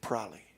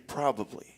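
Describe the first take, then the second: First: The word is squeezed into a shorter form. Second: All three syllables are said in full. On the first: This is how young people say it. "They say probably" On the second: This is the older, standard way of saying it. "they don't say probably"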